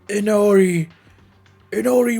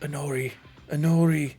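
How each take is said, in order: First: It is said loudly and forcefully. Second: It is said quietly and shyly.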